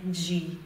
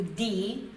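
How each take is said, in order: First: "Di" softened to "djee"; Brazilian soft d. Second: "di" with a hard d, like English "dee"; Italian hard d. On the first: Teacher contrasts how Brazilians say it, soft-d pronunciation. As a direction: say "Di" the Brazilian way, as "dji". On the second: Teacher shows learners the Italian syllable, hard-d pronunciation. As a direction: say "di" with no "j" sound after the d. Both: Shown as a demonstration. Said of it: "não é como a gente diz".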